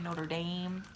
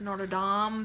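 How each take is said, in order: First: It is said the Minnesotan way. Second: It is said the European way.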